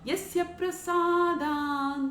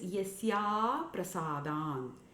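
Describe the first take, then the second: First: The joining vowel is short. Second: The joining vowel is drawn out long. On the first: There is no progress because of the guru's grace. The speaker calls it wrong. "the most common mispronunciation is" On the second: There is no progress without the guru's grace. The speaker calls it right. "the word is"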